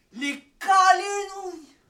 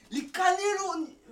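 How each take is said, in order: First: Cannelloni stretched out very slowly and louder; drawn-out cannelloni. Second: Cannelloni sounded out slowly; struggling word. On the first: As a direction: proclaim cannelloni, dragging every syllable. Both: Shown as a demonstration. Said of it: "j'arrive même pas à le prononcer".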